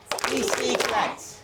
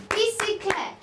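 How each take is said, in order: First: Very slow teaching model of "Bicyclette"; slow syllable model. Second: "Bicyclette" said high and clear for the class to hear; teacher modelling "Bicyclette" high and bright; modelled vocabulary word. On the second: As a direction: present "Bicyclette" as a new word, pitched high. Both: Shown as a demonstration.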